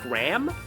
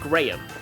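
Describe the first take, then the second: First: The name is said in an American accent. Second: The name is said in a non-American accent. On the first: This is how Americans say the name. "in an American accent, uh, that name is pronounced like Graham" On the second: This is how the speaker's own dialect says the name. "but I pronounce it Graham"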